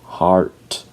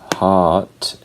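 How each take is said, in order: First: The R after the vowel is clearly pronounced. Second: The R is silent and the vowel is lengthened. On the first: "and heart in American English" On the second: "hot in British English"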